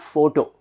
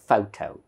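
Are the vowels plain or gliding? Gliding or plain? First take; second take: plain; gliding. First: The vowels are plain, steady o sounds. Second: The vowels glide, like fau and tau. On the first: The speaker calls it wrong. "So this is not photo. Generally, we pronounce it as photo" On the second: The speaker calls it right. "fau, tau ... correct original pronunciation"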